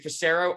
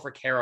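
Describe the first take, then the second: First: The middle consonant is an s sound. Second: The middle consonant is a k sound. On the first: "the two different ways people try to pronounce it" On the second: "the two different ways people try to pronounce it"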